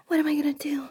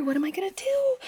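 First: Half-voiced anxious question; voiced panic. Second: Whispered panic. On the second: Acted. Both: Panicking alone, stuck.

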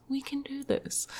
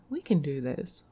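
First: Higher, softer self-pep; high pep talk voice. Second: Said in the usual way. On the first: Pretend. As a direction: cheer yourself on softly.

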